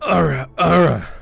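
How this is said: It is said in a strained, straining voice.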